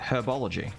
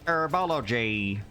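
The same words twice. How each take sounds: First: The first H sound is clearly pronounced. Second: The first H sound is dropped. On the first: The speaker calls it right. "You say herbology. Because there's a H there" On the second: The speaker calls it wrong. "You don't say herbology"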